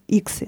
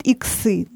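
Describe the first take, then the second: First: Иксы stressed on the first И; strong first syllable in иксы, light ending; correct stress. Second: Иксы stressed on the final Ы; weight thrown onto the last syllable of иксы; wrong stress. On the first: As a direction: say иксы the proper way, stem-stressed. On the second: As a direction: say иксы the mistaken way, ending-stressed. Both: Shown as a demonstration. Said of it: "Это неправильно".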